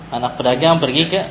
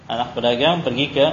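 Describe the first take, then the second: The two takes are said the same way.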